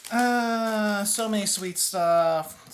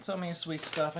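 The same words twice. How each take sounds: First: Loud, drawn-out exclamation; exclaiming. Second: Said in the usual way. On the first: Real, not acted. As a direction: stretch it out, overwhelmed. Overwhelmed by sweets.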